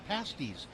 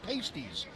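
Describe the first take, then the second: First: It is said the way Cornish people say it. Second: It is said differently from the Cornish way. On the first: "pronouncing them the way those Cornwall folks do" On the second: "changed your pronunciation"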